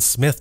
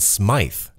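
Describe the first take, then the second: First: The name is said as Smith. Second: The name is said as Smythe. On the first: The speaker calls it wrong. "I've mispronounced the name of my guest. I thought it was Smith" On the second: The speaker calls it right. "but it's actually Smythe"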